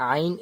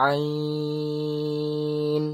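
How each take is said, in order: First: Said in the usual way. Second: আইন stretched out on one steady note; prolonged আইন. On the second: Shown as a demonstration. Teacher shows how to pull আইন, prolonged. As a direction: hold আইন very long and level. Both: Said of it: "একে টান দিয়ে বলবো".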